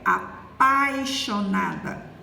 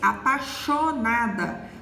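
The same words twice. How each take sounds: First: The i glide after pa is pronounced. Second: The i glide after pa is dropped. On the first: The speaker calls it right. "a forma correta é apaixonada" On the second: The speaker calls it wrong. "Ela disse apaixonada"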